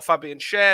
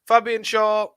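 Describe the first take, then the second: First: The surname ends with an 'air' vowel. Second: The surname ends with an 'aw' vowel. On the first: "People call him Schär" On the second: "I call him Shaw"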